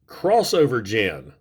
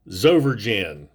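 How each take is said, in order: First: The name begins with the word 'cross'. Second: The name begins with a 'z' sound. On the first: The speaker calls it right. "that is pronounced crossover gen" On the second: The speaker calls it wrong. "or Zover gen"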